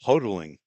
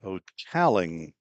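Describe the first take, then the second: First: "Hotaling" said HO-de-ling, first syllable stressed; stress on the wrong syllable. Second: "Hotaling" said slowly as ho-TAL-ing, stress on TAL; carefully fix "Hotaling", leaning on the second syllable TAL; "Hotaling" slowed down and stressed on TAL; corrected stress. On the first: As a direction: try "Hotaling" with the weight up front on HO. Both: Shown as a demonstration. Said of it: "I got the emphasis on the wrong syllable".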